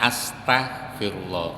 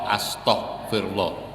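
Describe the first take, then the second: First: The t sound is said like ta. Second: The t sound is said like to. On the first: The speaker calls it right. "Harusnya pakai ta" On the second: The speaker calls it wrong. "Kadang astagfirullah aja keliru, pakai to"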